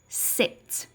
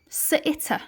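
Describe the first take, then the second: First: The consonants are pure, with no added vowel. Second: The consonants carry an added 'uh' vowel. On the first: The speaker calls it right. "I used pure sounds" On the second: The speaker calls it wrong. "Instead of using the sound s, I'm going to say s"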